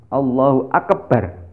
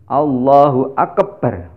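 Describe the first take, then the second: The two takes are said the same way.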